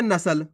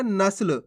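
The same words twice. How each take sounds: First: नस्ल opened out as na-sal; full vowel after स in नस्ल; full-letter misreading. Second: नस्ल with स run into ल; no vowel after स in नस्ल; half-letter pronunciation. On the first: Teacher shows the difference, नस्ल with full सा. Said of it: "कितना फर्क है". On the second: Teacher shows how we read it, नस्ल with half स. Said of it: "अपन पढ़ कैसे रहे". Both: Shown as a demonstration.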